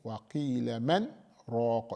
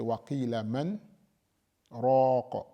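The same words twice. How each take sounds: First: A brief break without breath separates man and raq. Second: A full stop with a breath separates man and raq. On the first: The speaker calls it right. "you make a sakt, you make a short pause" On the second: The speaker calls it wrong. "You don't take a breath... because that is a stop"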